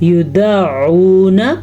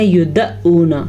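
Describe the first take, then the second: First: The ain is said from the throat. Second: The ain becomes a plain glottal stop. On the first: The speaker calls it right. "आइन आपने सीखना यहीं पे इसी वक्त" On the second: The speaker calls it wrong. "तो ये हमज़ा बन गया"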